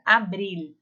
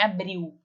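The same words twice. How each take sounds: First: "Abril" ending in a clear tongue-tip l; Spanish l. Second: "abril" ending in a Portuguese w, not an l. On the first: Teacher models the final l for the class. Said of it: "A língua bate lá no céu da boca". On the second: Teacher shows the Portuguese ending to avoid. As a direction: say "abril" as abriw, the wrong way. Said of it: "igual em português". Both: Shown as a demonstration.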